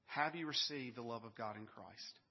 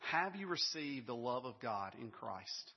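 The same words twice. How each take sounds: First: Pulled-back repeat. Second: Slow and deliberate, each word set down; slow, weighty question. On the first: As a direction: let the question sink in the second time. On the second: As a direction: ask it slowly so it lands. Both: Acted. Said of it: "first question I want to ask you".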